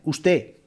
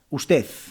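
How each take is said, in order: First: The final D is dropped completely. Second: The word ends with a th-like Z sound. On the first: "Usted en vez de usted" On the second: "En vez de D, utilizan la Z"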